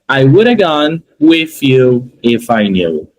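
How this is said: It is split into three chunks with breaks. "Aqui eu estou masterizando as três partes"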